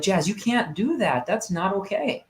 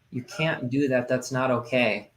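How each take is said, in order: First: A firm, higher-pitched telling-off; stern scolding. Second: Softer and slower, kindly firm; gentler rewording. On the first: Dad scolds his daughter in the kitchen sternly. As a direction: snap the rule at a child. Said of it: "I probably could have worded that differently". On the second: Dad rephrases the rule to his daughter, softly. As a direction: say the same rule gently this time. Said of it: "I thought about it and I'm like". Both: Retold or imitated.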